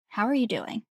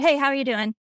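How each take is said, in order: First: It is asked slowly and sincerely. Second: It is asked quickly and casually.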